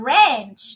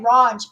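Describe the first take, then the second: First: It is said with a North American accent. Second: It is said with a South African accent. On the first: "like Americans or Canadians would say" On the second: "In South Africa, we say ranch"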